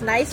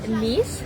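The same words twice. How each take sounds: First: It is said like the English word nice. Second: It is said with a French pronunciation. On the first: The speaker calls it wrong. "Some people pronounce it as nice, but of course no" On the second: The speaker calls it right. "it'd be Nice"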